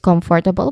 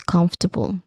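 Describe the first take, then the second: First: It is said with four distinct syllables. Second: It is said with three reduced syllables. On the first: The speaker calls it wrong. "they say it is comfortable" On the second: The speaker calls it right. "it should be pronounced as comfortable"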